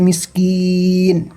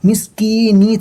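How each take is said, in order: First: The word ends on a bare 'n' sound. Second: The word ends with a short 'ee' vowel. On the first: The reader stops at this word. "যদি এখানে থামতে চাই তাহলে নিটা সাকিনে পরিণত হয়ে যাবে" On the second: The reading continues without stopping.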